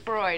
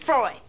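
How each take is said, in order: First: The word is said plainly, without extra force. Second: The word is said loudly, with exclamatory force. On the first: It is just the ordinary name. "it's not just Freud" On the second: It is the title with an exclamation point. "The exclamation point in the title"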